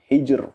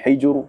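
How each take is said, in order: First: The final r sounds thin and light. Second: The final r sounds thick and heavy. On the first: The speaker calls it right. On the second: The speaker calls it wrong. "Bukan hijr"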